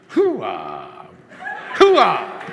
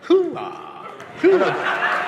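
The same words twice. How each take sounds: First: It is said forcefully, with real conviction. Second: It is said half-heartedly, without real conviction.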